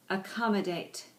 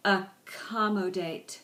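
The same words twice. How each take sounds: First: Said in the usual way. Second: "Accommodate" drawn out slowly, syllable by syllable; slowed-down pronunciation. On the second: Shown as a demonstration. Teacher modelling "Accommodate" for the class, slowed down by syllable. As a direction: stretch each syllable of "Accommodate". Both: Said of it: "with varying degrees of speed".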